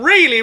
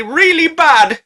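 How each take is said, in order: First: Said in the usual way. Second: "really bad" stretched slow, high and loud; drawn-out emphasis. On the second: Narrator dreading the silhouette, stretching "really bad".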